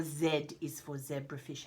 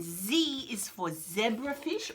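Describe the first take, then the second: First: Z said as zed, softer, in Z is for zebrafish. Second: Z said as zee in Z is for zebrafish. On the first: Teacher giving the Australian version. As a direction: start with zed. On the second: Teacher giving the American version. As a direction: start with zee, slowly. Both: Shown as a demonstration. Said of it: "however you want to say it".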